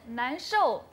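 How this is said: The word begins with an N sound. It means feeling awful. "원래는 난쇼"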